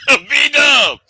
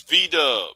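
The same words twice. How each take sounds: First: Loud, higher-pitched shout of the name; punched-up, raised-voice call-out. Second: Said in the usual way. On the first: Real, not acted. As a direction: holler it like a hype call. Calling out the name louder.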